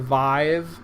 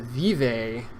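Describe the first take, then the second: First: It rhymes with the word five. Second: It has a Spanish-like vowel, not rhyming with five. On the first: The speaker calls it right. "in a way that rhymes with five" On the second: The speaker calls it wrong. "it's got an accent that I understand as like Spanish"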